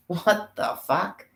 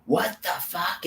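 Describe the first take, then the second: First: High, slow, put-on "what the fuck"; cartoonish shocked voice; mock outrage. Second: A higher, put-on "What the fuck?"; lightly voiced baffled brute; mock outrage. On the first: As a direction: ham up a baffled, outraged cry. Acted outraged exclamation. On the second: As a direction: act out the invaders' shock. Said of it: "storm into these fucking pyramids and go".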